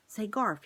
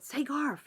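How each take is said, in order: First: Said in the usual way. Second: High, loud mouse call; top of his voice. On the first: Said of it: "he began". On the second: A narrator's reading. Desperate mouse calling to Garf, high and loud. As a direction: yell up to him as loud as a mouse can. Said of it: "at the top of his mouse voice".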